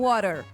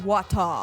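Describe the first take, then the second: First: It is said in an American accent. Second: It is said in a British accent.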